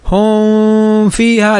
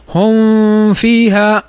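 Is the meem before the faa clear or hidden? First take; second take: hidden; hidden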